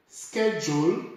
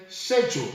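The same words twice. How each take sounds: First: "schedule" with a hard SK, sked-jool; "schedule" con sk dura, sked-jul; American schedule. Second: "schedule" with SH, shed-jool; "schedule" con sc dolce, shed-jul; British schedule. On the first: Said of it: "some say". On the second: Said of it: "others say". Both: Shown as a demonstration.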